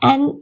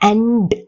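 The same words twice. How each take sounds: First: The word is shortened to a weak sound. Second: The word is said fully, with stress. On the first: The speaker calls it right. "and என்பது போலத்தான் உச்சரிப்புக்கு இருக்கு" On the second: The speaker calls it wrong. "and அப்படின்னு அழுத்தி சொல்ல மாட்டோம்"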